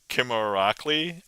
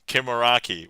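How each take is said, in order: First: The name is said with an extra sound. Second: The name is said without an extra sound. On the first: The speaker calls it wrong. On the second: The speaker calls it right.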